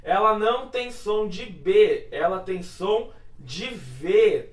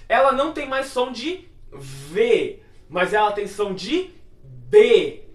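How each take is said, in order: First: "V" slow and clear at the end; stress on V. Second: "B" at the end, slower and louder; stress on B. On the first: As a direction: lean on "V", slowly. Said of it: "Nessa palavra aqui". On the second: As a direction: land hard on "B". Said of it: "quando você coloca um dagesh". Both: Shown as a demonstration.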